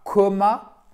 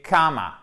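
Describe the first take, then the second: First: "comma" as KOH-ma, pitched up and rising; wrong closed O. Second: "comma" as KAH-ma, drawn out and falling; correct long vowel. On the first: Teacher shows what not to say, wrong O vowel. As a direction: hold up "comma" with an O as the mistake. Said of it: "C'est pas comma". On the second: Teacher corrects the learners' mistake, long open vowel. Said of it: "C'est entre le A et le O". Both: Shown as a demonstration.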